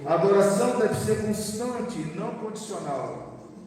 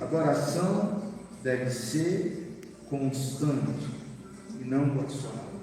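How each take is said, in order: First: It is said at a normal pace. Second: It is said slowly.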